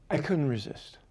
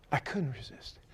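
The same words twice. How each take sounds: First: Said in the usual way. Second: Whispered repeat; whispered echo of the line. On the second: Shown as a demonstration. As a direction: drop it to a whisper.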